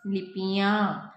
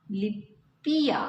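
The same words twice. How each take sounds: First: "लिपियाँ" with a clearly nasal final "याँ", said slowly; correct pronunciation. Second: "लिपिया" said slowly with a plain final "या", no nasal sound; slow wrong take "लिपिया", ending without nasalisation; wrong pronunciation. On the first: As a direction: model the right form "लिपियाँ", nasalising the end. ("लिपियाँ" सही उच्चारण, अनुनासिक "याँ" के साथ) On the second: ("लिपिया" धीरे से, बिना अनुनासिक के) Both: Shown as a demonstration. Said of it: "उच्चारण में अंतर है".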